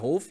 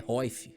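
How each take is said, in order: First: The vowel is followed by an L sound. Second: The vowel glides into an I sound. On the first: The speaker calls it wrong. "Pronúncia errada" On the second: The speaker calls it right. "é Roif"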